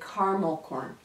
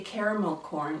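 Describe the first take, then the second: First: Caramel is said the American way. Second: Caramel is said the Canadian way.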